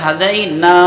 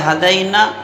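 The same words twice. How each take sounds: First: The vowel after the n is held long. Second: The vowel after the n is short. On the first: The speaker calls it right. "एक अलिफ के बराबर खींच के पढ़ेंगे" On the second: The speaker calls it wrong. "ये गलत है"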